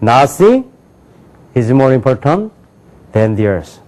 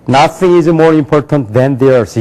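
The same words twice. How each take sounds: First: Three chunks, pauses between; "Nothing" / "is more important" / "than the earth"; sense-group phrasing. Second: Very slow, each word apart; slow broken reading of "Nothing is more important than the earth"; wrong word-by-word reading. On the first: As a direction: link the words inside each chunk. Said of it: "어떻게 읽냐면요". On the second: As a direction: stiff learner plodding. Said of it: "이게 아니에요". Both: Shown as a demonstration.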